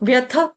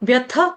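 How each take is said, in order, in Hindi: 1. स्वर छोटा है, और हल्की साँस के साथ खत्म होता है। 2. स्वर छोटा है, और हल्की साँस के साथ खत्म होता है।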